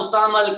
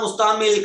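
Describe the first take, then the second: First: مستعمل with short a, "musta'mal"; zabar reading. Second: مستعمل with short i, "musta'mil"; zer reading. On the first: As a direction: end مستعمل on -mal. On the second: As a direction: end مستعمل on -mil. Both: Shown as a demonstration. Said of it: "آپ کا زبر automatically لگنا چاہیے".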